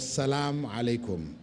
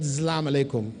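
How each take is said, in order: First: The first word begins with a clear s sound. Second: The first word begins with a z sound. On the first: It wishes peace on the listener. The speaker calls it right. "we say Assalamu alaikum or Salam alaikum" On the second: It wishes oppression on the listener. The speaker calls it wrong. "Not Zlam alaikum. No, Zlam is like uh, oppression on you"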